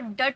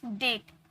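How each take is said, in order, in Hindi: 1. स्वर एक छोटी 'uh' ध्वनि है। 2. स्वर एक 'ay' ध्वनि है। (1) "अ से साउंड होता है, तो डट बोले क्या" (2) "यहाँ पर ए का उच्चारण आया ना"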